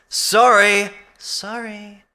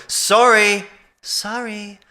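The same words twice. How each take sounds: The two takes are said the same way.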